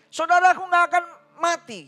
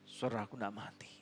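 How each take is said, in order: First: It is said with a slightly agitated, emotional tone. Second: It is said sobbing, in a resigned tone. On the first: The speaker is upset and somewhat accusing. "Dia akan ngomong dengan sedikit emosi gitu" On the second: The speaker has given up and accepts what happened. "dia menangis sesenggukan... Dia pasrah udah"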